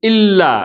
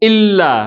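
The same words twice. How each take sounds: Both takes have the same delivery.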